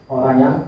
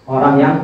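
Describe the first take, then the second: The two takes are said the same way.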